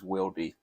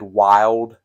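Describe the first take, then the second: First: The name ends with an added ee sound. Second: The name ends without a final vowel sound. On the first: The speaker calls it right. "the way it's really pronounced is Wildy" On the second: The speaker calls it wrong. "I have always said Wild Tool"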